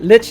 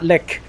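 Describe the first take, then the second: First: The word ends with a ch sound. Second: The word ends with a k sound. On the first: The speaker calls it right. "I think it's lich, right? Lich, not lick" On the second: The speaker calls it wrong. "not lick"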